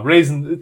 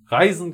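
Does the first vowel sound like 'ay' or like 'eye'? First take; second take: ay; eye. First: The first vowel sounds like 'ay'. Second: The first vowel sounds like 'eye'. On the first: This is an acceptable way to say the name. "Raisin, das geht schon" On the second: This is how many people say the name. "Reisen, glaube ich, ganz, ganz oft"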